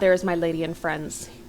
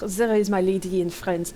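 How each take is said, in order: First: It is said in a plain, unaccented voice. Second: It is said with a French-sounding accent.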